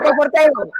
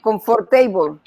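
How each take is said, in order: First: The ending is reduced and not said like 'table'. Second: The ending is said fully, like the word 'table'. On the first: The speaker calls it right. "pero yo digo comfortable" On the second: The speaker calls it wrong. "ellos le dicen comfortable, porque table como table"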